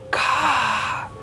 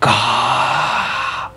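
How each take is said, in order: First: The sound is said softly and quietly. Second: The sound is said very loudly and harshly. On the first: The creature is still far away. "slow je" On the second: The creature is getting closer. "dengar suara tu kuat gila"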